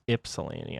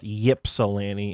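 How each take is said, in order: First: The name begins with an 'ih' sound. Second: The name begins with a 'why' sound. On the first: The speaker calls it right. "it's Ypsilanti" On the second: The speaker calls it wrong. "even though there is a Y, it's not Ypsilanti"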